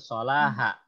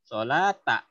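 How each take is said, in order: First: The word ends with a ha syllable. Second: The word ends with a ta syllable. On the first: The speaker calls it wrong. "Bukan sholaha" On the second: The speaker calls it right. "Sambung baru disebutnya tak"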